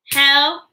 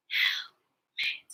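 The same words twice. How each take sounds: First: HELMET in two separate beats, spoken aloud; broken into syllables. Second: HELMET whispered in two separate beats; whispered syllables. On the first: Teacher asking children to stomp along, Helmet split in two. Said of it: "Break words into parts". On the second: Teacher leading children through word parts, Helmet whispered. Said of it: "Whisper with me". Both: Shown as a demonstration.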